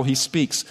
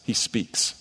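First: Said in the usual way. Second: Whispered. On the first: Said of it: "same words in usual voice". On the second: Shown as a demonstration. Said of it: "opening line, before same words".

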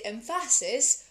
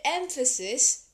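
First: EMPHASIS with the stress moved to the middle, em-FA-sis; wrong-syllable stress. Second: Said in the usual way. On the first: Shown as a demonstration. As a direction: lean on the second syllable of EMPHASIS. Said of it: "Oh, you said emphasis". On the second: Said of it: "it's fine".

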